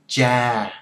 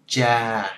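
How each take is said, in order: The two takes are said the same way.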